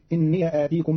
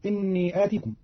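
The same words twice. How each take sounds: First: إني said "inniya" before آتيكم; fatha on ya. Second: Said in the usual way. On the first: Shown as a demonstration. Teacher showing Qalun's reading, إني said "inniya". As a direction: open the ya of إني into a short "ya". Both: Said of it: "بفتح ياء الإضافة".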